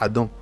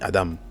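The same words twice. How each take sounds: First: The word ends without a clear m sound. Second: The word ends with a clear m sound. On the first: This is the usual French way of saying it. The speaker calls it wrong. "pas Adam" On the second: This is how it is said in Hebrew. The speaker calls it right. "mais Adam"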